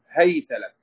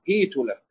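First: The h takes a and the t takes a. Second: The h takes i and the t takes u. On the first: "بفتحهما" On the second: "بكسر أوله وضم آخره"

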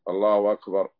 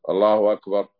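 No difference in how they are said.

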